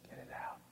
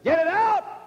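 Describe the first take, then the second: First: It is said more softly. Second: It is said loudly.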